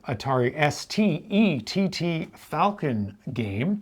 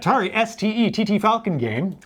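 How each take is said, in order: First: It is said at normal speed. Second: It is said fast.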